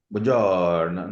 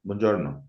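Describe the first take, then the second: First: Mock Italian, long drawn-out vowel; hammed-up Italian lilt, slow; exaggerated Italian accent. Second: Said in the usual way. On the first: Shown as a demonstration. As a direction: stretch buongiorno in a sing-song Italian way. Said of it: "I don't speak like an accent". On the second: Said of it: "That's it".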